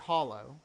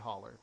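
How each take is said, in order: First: The word ends in a rounded oh sound. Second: The word ends in an er sound. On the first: "I can't say hollow" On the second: "I have to say hauler"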